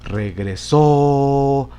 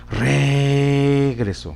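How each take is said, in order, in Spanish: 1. El acento está en la última sílaba. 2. El acento está en la primera sílaba. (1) "Vamos a ubicarla entonces en la última sílaba" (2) "Vamos a ver si lo observamos en la antepenúltima sílaba. En la re"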